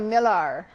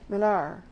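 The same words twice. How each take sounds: First: The name is said with a twangy vowel. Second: The name is said plainly without a twang. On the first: The speaker calls it wrong. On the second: The speaker calls it right.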